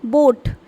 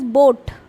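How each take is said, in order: Both takes have the same delivery.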